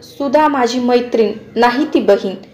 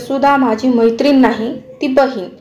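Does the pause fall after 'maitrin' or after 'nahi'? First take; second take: after maitrin; after nahi. First: There is a pause after the word maitrin. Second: There is a pause after the word nahi. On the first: Sudha is a friend, not a sister. "मैत्रीणच्या नंतर स्वल्पविराम दिला तर सुधा माझी मैत्रीण आहे नाही ती बहीण" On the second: Sudha is not a friend but a sister. "पहिले नाहीच्या नंतर स्वल्पविराम दिला तर सुधा माझी मैत्रीण नाही ती बहीण आहे असा अर्थ होतो"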